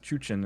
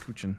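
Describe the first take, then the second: First: The word begins with a 'ch' sound. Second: The word begins with a 'k' sound. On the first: The speaker calls it right. "Apparently it's Chuchin" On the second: The speaker calls it wrong. "not Kuchin"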